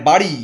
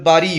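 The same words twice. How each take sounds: First: Said in the usual way. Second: বাড়ি said "baari", flap turned into plain R; stylised pronunciation. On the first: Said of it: "গানের মধ্যে আছে বাড়ি". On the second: Retold or imitated. Mocking singers' styling of the lyric, বাড়ি as "baari". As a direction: swap the ড় in বাড়ি for র. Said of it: "একটু style করে".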